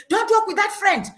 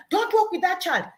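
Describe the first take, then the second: First: Put-on raised, higher warning to a child; a parent snapping a warning; parent's warning. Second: Raised, higher warning; parent's warning. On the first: Parent warning daughter off a friend, raised voice. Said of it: "a parent will say". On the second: Retold or imitated. Parent forbidding the friend, raised voice. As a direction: warn the child off sharply. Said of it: "By you telling her".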